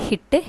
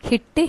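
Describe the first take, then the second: The two takes are said the same way.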